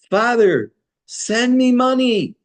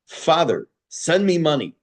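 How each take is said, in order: First: It is said in a trembling, pleading voice. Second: It is said curtly, in a blunt demanding tone. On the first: The son is tearfully begging for help. The speaker calls it right. "in a trembling, pleading voice" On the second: The son is being brash and inconsiderate. The speaker calls it wrong. "A terse telegram"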